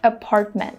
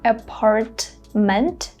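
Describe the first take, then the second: First: The T sounds are held with no air. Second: The T sounds are released with air. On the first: "I'm holding these two T sounds" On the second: "Instead of saying"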